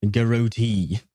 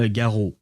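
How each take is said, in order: First: "Garotee" as guh-ROH-TEE, long last syllable; "Garotee" ending in a drawn-out EE; rejected pronunciation. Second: French-style "Garot", no final T; French pronunciation. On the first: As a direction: mockingly sound out "Garotee" with a stretched TEE. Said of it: "I refuse to pronounce this". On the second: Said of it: "I will pronounce it the French way". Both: Shown as a demonstration.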